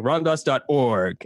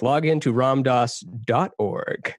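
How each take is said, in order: First: Org emphasized at the end; slow, with org as the strong word; stress on ORG. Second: DOT drawn out and emphasized before org; stress on DOT. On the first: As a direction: land the weight on org, not dot. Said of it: "most people put it on the org". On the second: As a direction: lean on the word dot, slowly. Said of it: "where you put the emphasis of the dot". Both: Shown as a demonstration.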